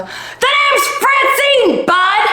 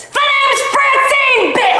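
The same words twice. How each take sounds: First: High, slow shouted name, swear swapped out; same yell, kid-friendly word; cleaned-up shout. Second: High, slow shouted battle-cry intro; shouting Francine. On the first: Correcting herself for the kids, still shouting. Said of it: "Oh, wait, I'm around kids". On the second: To the bratty kid, shouting her name. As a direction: announce yourself like a furious stranger. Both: Acted.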